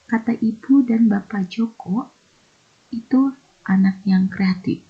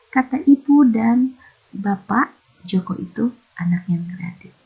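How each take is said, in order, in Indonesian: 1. Jedanya setelah kata Joko. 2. Jedanya setelah kata bapak. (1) "Berarti bapak Joko ini ya, bukan si Jokonya" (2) "Di bapak di stop"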